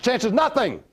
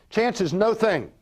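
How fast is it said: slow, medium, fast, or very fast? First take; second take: very fast; medium. First: It is said fastest, run together. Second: It is said a bit faster.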